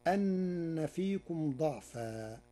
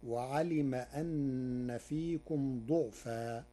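First: "ضعفا" said da'fa, with a; "ضعفا" as DA'-faa, drawn out; fatha on dad. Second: "ضعفا" said du'fa, with u; "ضعفا" as DU'-faa, drawn out; damma on dad. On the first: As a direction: recite "ضعفا" slowly with an a after the dad. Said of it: "قرأ ورش كلمة ضعفا". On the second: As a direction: recite "ضعفا" slowly with a u after the dad. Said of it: "بضم الضاد،". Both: Shown as a demonstration.

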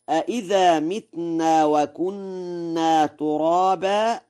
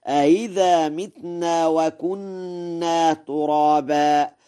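First: Said in the usual way. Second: أإذا with the second hamza glided, then recite on; softened second hamza. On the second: Shown as a demonstration. Teacher demonstrates the verse, أإذا with softened second hamza. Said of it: "فيقرأ هكذا".

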